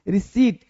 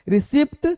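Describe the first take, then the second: First: No p sound is heard before the t. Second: A p sound is heard before the final t. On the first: The speaker calls it right. "रिसीट बोलते हैं" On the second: The speaker calls it wrong. "रिसिप्ट गलत है"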